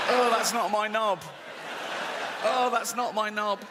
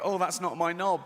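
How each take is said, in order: First: Shocked shout. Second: Said in the usual way. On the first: Retold or imitated. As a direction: yell it in comic horror at your own body. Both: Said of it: "I go".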